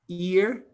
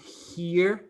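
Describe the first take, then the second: First: The word is said without an H sound. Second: The word is said with an H sound. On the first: The speaker calls it wrong. "They don't pronounce the here" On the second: The speaker calls it right. "not here"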